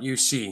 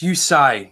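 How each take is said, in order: First: The name ends with a 'see' sound. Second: The name ends with a 'sigh' sound. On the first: The speaker calls it wrong. "not U C" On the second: The speaker calls it right. "it's Usai"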